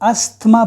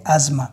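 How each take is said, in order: First: The middle has an s and th sound. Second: The middle has a z sound, no th. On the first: The speaker calls it wrong. "बाज़ लोग इसको अस्थमा बोलते हैं" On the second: The speaker calls it right. "इसमें ये एस जेड का आवाज़ देता है और टी एच साइलेंट है"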